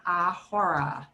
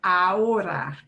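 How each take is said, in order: First: "ahora" with an English H sounded in the middle; the mistaken "ahora", split by an audible H; wrongly sounded H. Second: "Ahora" gliding straight from A to O; corrected "Ahora", vowels joined, H silent. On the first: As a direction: say "ahora" slowly as a-HO-ra, breathing the H. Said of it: "It's not ahora". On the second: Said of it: "You go straight from the A to the O". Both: Shown as a demonstration.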